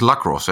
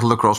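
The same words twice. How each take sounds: First: The first vowel is a full, clear 'a'. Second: The first vowel is reduced and weak. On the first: The speaker calls it right. "De A spreek je uit" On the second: The speaker calls it wrong. "Ik zeg lacrosse"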